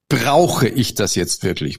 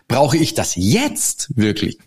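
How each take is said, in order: First: The stress is on brauche. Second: The stress is on jetzt.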